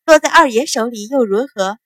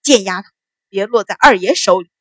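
First: Teasing echo of the threat; light mocking question; smiling retort. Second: Restrained snarling warning; gritted-teeth shout. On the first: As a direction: throw the words back, amused. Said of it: "白芍笑着接口". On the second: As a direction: threaten through clenched teeth. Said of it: "咬牙喝道". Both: A narrator's reading.

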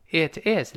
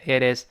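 First: "It is" as two distinct words; separate words. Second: "It is" run together with a flapped t; linked words. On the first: Teacher sets up the linking, separate "It is". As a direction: say "It is" unlinked, with a clear t. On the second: Teacher shows the linked form, joined-up "It is". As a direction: join "It is" into one, like "idiz". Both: Shown as a demonstration. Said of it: "连读变成".

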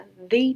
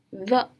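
First: Long ee vowel in "the"; "the" as "thee". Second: Plain schwa in "the"; "the" as "thuh". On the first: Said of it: "在元音因素之前要发the的音". (“the”读作 thee) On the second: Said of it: "在元音因素之前要发". (“the”读作 thuh) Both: Shown as a demonstration.

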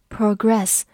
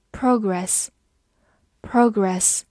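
First: Progress with stress moved to the second syllable, pro-GRESS; verb stress. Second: Progress said slowly with stress on the first syllable, PRO-gress; noun stress. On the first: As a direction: land on the end of progress, the verb reading. (动词重音，重读progress的第二个音节) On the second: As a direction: lean on the front of Progress, drawn out twice. (名词重音，重读Progress的第一个音节) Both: Shown as a demonstration. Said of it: "或者发progress做一个动词来讲".

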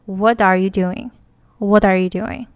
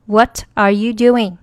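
First: T of What linked into are, voiced like a d. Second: Each word of "What are you doing" separate, crisp t in What; 分开读. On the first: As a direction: run "What are you doing" together, "What are" as "wha-dar". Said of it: "t要变成它的浊辅音的". (连读，"What" 的 t 浊化连到 are) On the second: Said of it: "比如说". (不连读，"What" 的 t 读成清音) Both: Shown as a demonstration.

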